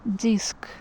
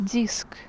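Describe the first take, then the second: The two takes are said the same way.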